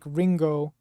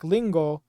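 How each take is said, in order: First: It starts with a hard English r sound. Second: It starts with a clear l sound. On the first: "You really can't be like Ringo" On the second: "You can't be like lingo"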